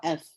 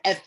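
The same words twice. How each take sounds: First: "F" with the air flowing out after it; airy "F"; F with breath. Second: "F" held back so no air comes out; "F" with the breath blocked; stifled F. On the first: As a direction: let breath escape on "F". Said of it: "the air is coming out". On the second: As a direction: choke off the "F". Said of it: "It's not like I said". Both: Shown as a demonstration.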